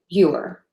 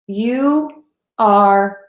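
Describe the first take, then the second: First: It is said as one contracted syllable. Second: It is said as two full, separate words.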